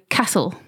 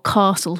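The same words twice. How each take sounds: First: It is said in an ordinary, non-posh accent. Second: It is said in a posh, upper-class accent.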